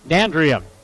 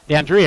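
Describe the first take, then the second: First: The stress is not on the second syllable. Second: The stress is on the second syllable. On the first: The speaker calls it wrong. "excuse me" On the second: The speaker calls it right. "Em- emphasize the second syllable"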